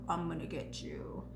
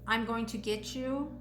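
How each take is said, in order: First: It is said in a put-on, menacing voice. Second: It is said in the speaker's normal voice.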